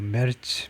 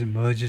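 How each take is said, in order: First: The name is said with a German pronunciation. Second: The name is said with an English pronunciation. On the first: "독일 발음은 이제 뭐 메르츠 뭐 이런 정도인데" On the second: "영어식으로는 그냥 머즈 머즈 정도인데요"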